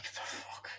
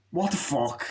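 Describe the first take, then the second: First: Voiceless, barely audible whisper; whispered disbelief. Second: Said in the usual way. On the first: Retold or imitated. Viewer reacting to the nightclub scene, whispered disbelief.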